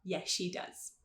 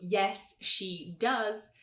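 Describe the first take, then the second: First: The s and sh merge into one sh sound. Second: The s and sh are said separately and slowly. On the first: The speaker calls it right. "a gente fala" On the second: The speaker calls it wrong. "é muito devagar"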